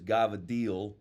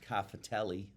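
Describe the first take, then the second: First: It is said the Italian way, starting with G, ending clipped. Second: It is said the American way, with every syllable. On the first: "in Italian it was gavadil"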